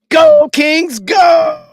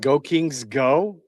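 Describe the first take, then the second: First: It is said loudly, with lots of energy. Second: It is said flatly, without much energy.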